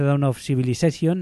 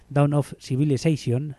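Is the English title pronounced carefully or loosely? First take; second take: loosely; carefully. First: The title is pronounced loosely, with a Spanish flavour. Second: The title is pronounced carefully, closer to English. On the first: The speaker calls it wrong. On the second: The speaker calls it right.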